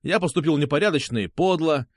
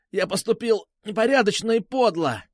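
First: Measured line given for repeating; dictating. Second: High-pitched wailing repetition; forced confession. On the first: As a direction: dictate the confession evenly. Captor dictates the apology. (диктовать признание) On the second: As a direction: cry out the dictated words. Captive repeats under pain. (выкрикнуть признание под нажимом) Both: A narrator's reading.

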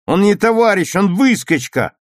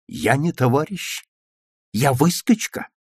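First: High, loud denunciation; contemptuous shout. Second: Rising questions at ordinary volume; stung questioning. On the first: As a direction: shout him down with scorn. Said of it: "презрительно крикнул Витя". (презрительный выкрик) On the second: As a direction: echo the insult as disbelieving questions. Petya throws the insult back as questions. (обиженно переспрашивая) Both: A narrator's reading.

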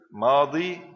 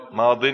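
First: ماضي drawn out as maadii; ماضي with no tanween, long -ii; final ya kept. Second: ماض said loudly as maadin; ya dropped, tanween. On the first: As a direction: hold the long ya ending ماضي. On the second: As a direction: end ماض on a firm "-in". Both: Shown as a demonstration. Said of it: "إذا كان نكرة نحذف الياء".

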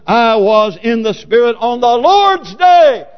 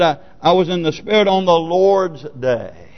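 First: Slow, high, shouted scripture; emphatic declaiming. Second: Said in the usual way. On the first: Acted. Preacher stressing the resurrection day, emphatic shout. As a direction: proclaim it slowly, swelling to a shout. Verse repeated as emphatic climax.

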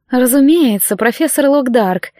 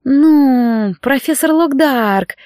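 First: Cooing. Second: Purring. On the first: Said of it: "проворковала она". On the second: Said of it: "промурлыкала она". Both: Acted.

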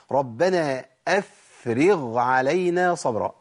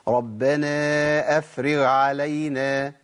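First: Very slow recitation, أفرغ with a clear voiced غ before ع; correct recitation. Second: Very slow recitation, the غ in أفرغ swallowed into the following ع; wrong merged letter. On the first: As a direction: recite أفرغ keeping the غ distinct from the ع. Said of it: "العين هقول إيه". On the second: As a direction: say أفرغ with the غ absorbed into علينا. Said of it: "طب الخطأ فين". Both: Shown as a demonstration.

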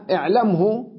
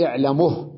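First: اعلمه as i'lam-hu; original full form. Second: اعلمه as i'lamuh; pause with vowel transfer. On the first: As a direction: still م and voiced hu in اعلمه. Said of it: "وكذلك". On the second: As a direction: put u on the م of اعلمه, stop on h. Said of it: "أقول". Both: Shown as a demonstration.

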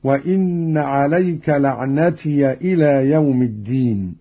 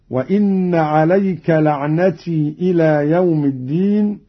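First: لعنتي ending in "-tiya"; open ya. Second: لعنتي ending in long "tii"; no a after the y of لعنتي; silent ya. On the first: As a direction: add short a after the y of لعنتي. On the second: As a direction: recite لعنتي as "la'natii" before the next word. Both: Shown as a demonstration. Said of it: "فتح قالون الياء وصلا".

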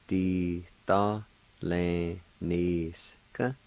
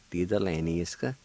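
First: "di to le ni ska" very slow, in separated syllables. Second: Said in the usual way. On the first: Shown as a demonstration. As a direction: hold each syllable of "di to le ni ska" and pause between. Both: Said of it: "I'll pronounce these words".

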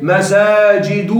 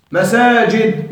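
First: "مساجد" said slowly as "masaajidu"; damma without tanween. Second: Said in the usual way. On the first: Shown as a demonstration. Teacher showing a diptote, "مساجد" stretched to a final "-u". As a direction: draw out "مساجد" and close on u, no n. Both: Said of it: "بدون تنوين".

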